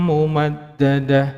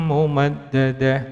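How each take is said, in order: The two takes are said the same way.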